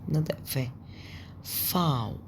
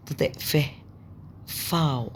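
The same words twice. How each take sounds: The two takes are said the same way.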